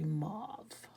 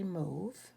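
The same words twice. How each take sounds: First: The word is said the American way. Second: The word is said the Canadian way. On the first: "Americans say mauve" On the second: "Canadians say mauve"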